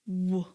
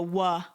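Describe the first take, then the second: First: The consonant is said alone without a vowel. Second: The consonant is followed by an added ah vowel. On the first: The speaker calls it right. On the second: The speaker calls it wrong.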